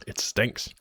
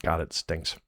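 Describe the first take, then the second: First: Whispered disgust. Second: Said in the usual way. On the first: Real, not acted. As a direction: breathe it out in a whisper.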